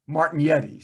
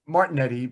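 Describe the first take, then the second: First: The name is said the full original way. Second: The name is said the simplified, anglicized way. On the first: This is the fully correct version. "The hundred percent pronunciation would be Martignetti" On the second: This is the everyday, close-enough version. "I do Martinetti"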